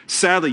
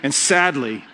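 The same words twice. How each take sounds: First: Sadly said with a laugh, fake sorrow; Sadly with a chuckle, pretending to mourn; mock sad, laughing. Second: Said in the usual way. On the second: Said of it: "scarcely able to contain their excitement".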